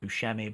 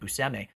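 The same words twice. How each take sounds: First: The middle consonant is a 'sh' sound. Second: The middle consonant is an 's' sound. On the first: This is the popular but mistaken pronunciation. The speaker calls it wrong. "I also thought his name was pronounced Buscemi" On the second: This is how the man himself says his name. The speaker calls it right. "apparently he pronounces it Buscemi"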